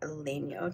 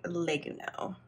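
First: It is pronounced closer to the Italian way. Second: It is pronounced the Japanese katakana way. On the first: "it's more like legno" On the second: "in Japanese, ... they pronounce it more like legno"

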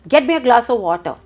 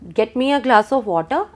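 First: It is said as a firm, commanding order. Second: It is said as a gentle, polite request. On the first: The speaker is giving an order. "I can also tell you" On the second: The speaker is asking a favour. "I can ask you to get me a glass of water"

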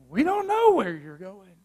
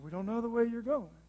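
First: It is said in a sarcastic tone. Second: It is said sheepishly and timidly.

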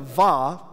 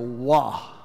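First: It begins with a V sound. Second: It begins with a W sound. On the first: The speaker calls it wrong. "The V is very Latin in nature" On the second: The speaker calls it right. "really it would be more like a wa, like a W"

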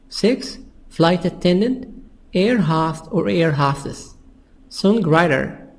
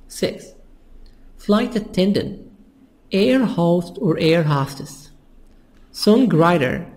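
Both takes have the same delivery.

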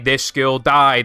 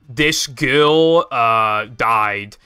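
First: It is said smoothly with no pause. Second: It is broken up with pauses and hesitation. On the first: The speaker calls it right. "you just say" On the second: The speaker calls it wrong. "instead of saying those two sentences separately"

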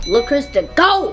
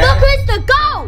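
First: It is said flatly, without emphasis. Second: It is said loudly, with strong emphasis.

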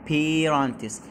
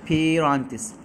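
No difference in how they are said.

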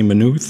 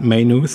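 First: It is pronounced the Irish way. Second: It is pronounced the American or British way. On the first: The speaker calls it right. "They say Maynooth" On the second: The speaker calls it wrong. "and not Maynooth, as some probably Americans or British would do"

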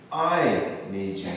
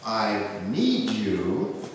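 First: The stress is on I. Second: The stress is on need.

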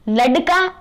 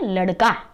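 First: The middle consonant is a hard d-like stop. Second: The middle consonant is a quick r-like flap. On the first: The speaker calls it wrong. "ऐसा नहीं बोलते हैं" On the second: The speaker calls it right. "उसके नीचे नुक्ता आ गया तो हम उसका उच्चारण करते हैं"

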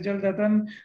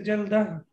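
First: The word ends in a full 'atan' sound. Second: The word ends in a short 'ah' sound. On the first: The speech continues without a pause. "And if we don't stop, we say jaldatan" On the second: The speaker pauses after this word. "If we stop, we know that we say jaldah"

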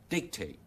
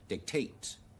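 First: The stress is on the first syllable. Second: The stress is on the second syllable. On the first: "美語將那個重音全部放在第一個音節那裡" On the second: "將那個重音放在第二個音節那裡讀成"

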